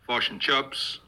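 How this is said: It is said in a New Zealand accent.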